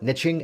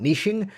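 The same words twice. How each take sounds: First: The first syllable rhymes with 'rich'. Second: The first syllable does not rhyme with 'rich'. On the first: The speaker calls it right. "we like to call it niching ... niche rhymes with rich" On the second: The speaker calls it wrong. "and not niching"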